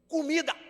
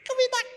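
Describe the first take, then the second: First: It is said in a normal voice. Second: It is said in a thin, high voice.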